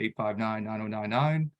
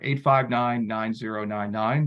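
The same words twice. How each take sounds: First: The number is read at a normal pace. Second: The number is read at a slower pace.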